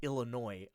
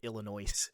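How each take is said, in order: First: The final S is silent. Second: The final S is pronounced. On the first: The speaker calls it right. "that's like one of the earliest things you learn is oh it's Illinois" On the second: The speaker calls it wrong. "I've never met like anyone that seriously pronounced it Illinois"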